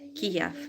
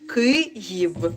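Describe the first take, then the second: First: The name is said the Russian way, Kiev. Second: The name is said the Ukrainian way, Kyiv. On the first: "This is in Russian language" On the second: "in Ukrainian language it sounds like Kyiv"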